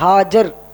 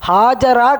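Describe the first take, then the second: First: The name ends on the consonant 'r'. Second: The name ends with a final 'a' vowel. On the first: The speaker calls it right. "ஹாஜரா கிடையாது, ஹாஜர்" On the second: The speaker calls it wrong. "ஹாஜரா என்பது தவறான ஒரு உச்சரிப்பு"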